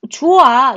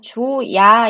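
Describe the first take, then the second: First: The word ends in a plain 'a' vowel. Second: A 'y' glide comes before the final vowel. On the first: The speaker calls it wrong. "이렇게 안 하잖아요" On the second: The speaker calls it right. "이렇게 얘기하잖아요"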